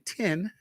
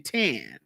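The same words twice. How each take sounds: First: It is said with a standard accent. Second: It is said with a country accent.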